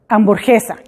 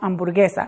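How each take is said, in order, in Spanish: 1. La g es un sonido j rasposo y gutural. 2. La g es un sonido g dura. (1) "si ponemos una E después de una G sin una U, entonces sonaría hamburguesa" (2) "no hamburguesa"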